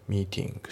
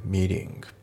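First: "ミーティング" with the middle t sounded as a true t; British-style meeting, crisp unflapped t; British clear T. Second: "ミーティング" with the t softened to an l-like flap; voiced, tapped middle t in ミーティング; American flapped T. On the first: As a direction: keep the t in ミーティング unvoiced. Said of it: "そのまんまTで発音される". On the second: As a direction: say meeting as "meeling", American style. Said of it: "Lで濁ることが多い". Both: Shown as a demonstration.

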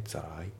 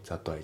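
First: "ザライ" fused, T becoming L; linked pronunciation. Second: "that I" as separate "zatto ai"; katakana-style "that I", T fully sounded; unlinked pronunciation. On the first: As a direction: tap straight into I in "ザライ". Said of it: "リンキングで". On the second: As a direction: keep the two words apart in "that I". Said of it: "じゃなくて". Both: Shown as a demonstration.

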